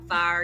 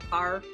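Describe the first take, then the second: First: The word is said in a light, everyday accent. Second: The word is said in a thick, heavy accent. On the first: "as opposed to saying like" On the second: "you'd say like"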